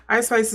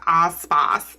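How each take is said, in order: First: Said in the usual way. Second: Vowels slipping into a stray accent, the rapper's name like "Ahs Spahs"; accidental drawn-open "ah" accent on the name; odd accidental accent. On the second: Real, not acted. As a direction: let an unplaceable accent flatten both vowels in the name to "ah". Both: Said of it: "I don't know what that accent was".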